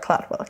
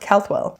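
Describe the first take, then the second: First: The name begins with the sounds 'Clad'. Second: The name begins with the sounds 'Cald'. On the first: The speaker calls it wrong. "not Cladwell" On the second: The speaker calls it right. "or Caldwell"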